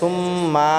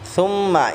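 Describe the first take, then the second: First: The final vowel is drawn out long. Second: The final vowel is short. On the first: The speaker calls it wrong. "মাও টান করে" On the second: The speaker calls it right. "এখানে মা টান হবে না"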